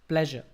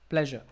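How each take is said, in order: Both takes have the same delivery.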